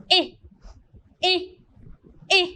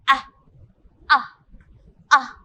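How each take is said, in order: First: "eh" said as the long a, like the letter name, three times; long a sound. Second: "ah" said as the short open a, three times; short a sound. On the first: Teacher modelling the long A sound for the class. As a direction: drill the long "eh". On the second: Teacher modelling the short A sound for the class. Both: Shown as a demonstration. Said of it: "I say the A sound".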